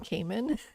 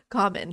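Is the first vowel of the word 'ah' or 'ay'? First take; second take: ay; ah. First: The first vowel sounds like 'ay'. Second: The first vowel sounds like 'ah'. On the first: The speaker calls it wrong. "like Cayman Islands" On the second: The speaker calls it right. "thank you"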